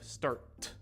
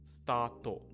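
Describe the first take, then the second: First: The word ends cleanly on the t consonant. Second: The word ends with an added final o vowel. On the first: The speaker calls it right. "Instead of start" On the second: The speaker calls it wrong. "when you're speaking English with a Japanese accent, words like start become stato"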